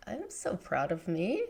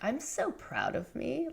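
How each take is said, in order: First: Softer, heartfelt self-praise; sincere quiet pride. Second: Raised, mock-proud self-praise; hypothetical self-praise. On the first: Retold or imitated. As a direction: say it to yourself, meaning it. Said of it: "I was just like". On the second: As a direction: toss it off lightly, as if she never would. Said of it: "have I ever stopped and been like".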